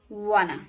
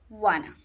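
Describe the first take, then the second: Both takes have the same delivery.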